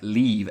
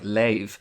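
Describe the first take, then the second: First: The vowel sounds like 'ee' in 'see'. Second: The vowel sounds like 'ay' in 'say'.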